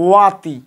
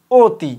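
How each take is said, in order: First: ওয়াতি with open o-sound first, as spelt; as written. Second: অতি with a closed, rounded "o" first; as pronounced. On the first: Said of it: "লেখার সময় লিখি". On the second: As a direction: say অতি as "oti". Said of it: "আমরা বলি". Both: Shown as a demonstration.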